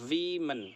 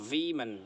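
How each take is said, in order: The two takes are said the same way.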